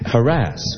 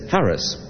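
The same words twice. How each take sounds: First: The word has its current, commonly heard pronunciation. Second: The word has its older, dictionary pronunciation. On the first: This is how most people say it today. "which is what is usually said now" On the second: This is the form dictionaries give and older texts need. "correctly said, it's harass"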